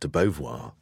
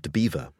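First: The name ends with a French-like 'bo-vwar' sound. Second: The name ends sounding like the word 'beaver'. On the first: This is how the name is usually said now. "is called De Beauvoir" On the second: This is how locals used to say it. "the local pronunciation was De Beaver"

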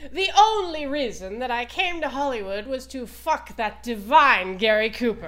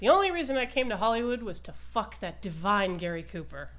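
First: It is said in an imitated, put-on voice. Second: It is said in the speaker's ordinary voice.

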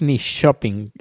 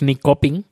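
First: The k is said as an sh sound. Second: The k is said as a hard k sound. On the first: The speaker calls it right. "es un sonido SH" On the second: The speaker calls it wrong. "la K no es ni coping"

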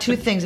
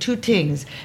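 First: The second word begins with a TH sound. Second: The second word begins with a T sound. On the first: "the thing would be not two things" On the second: "it would be two tings"

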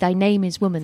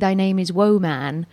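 First: The first syllable of woman sounds like 'woo'. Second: The first syllable of woman sounds like 'woe'. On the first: Women are weak. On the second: A man full of woe.

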